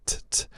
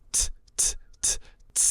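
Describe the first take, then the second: First: "T, t, t" short crisp taps. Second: "t, t" held into a hissing S, whispered. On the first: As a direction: tap "T, t, t" quickly and lightly. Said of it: "I'll teach S by adding on a sound to a T". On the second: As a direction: stretch "t, t" into an airy S. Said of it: "you hold on". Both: Shown as a demonstration.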